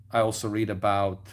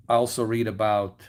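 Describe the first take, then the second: No difference in how they are said.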